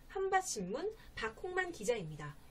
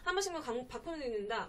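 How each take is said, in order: First: It is said slowly, each syllable clear. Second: It is said fast, words run together.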